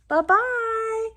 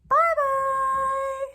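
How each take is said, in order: First: It is said in a big gruff voice. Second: It is said in a squeaky little voice.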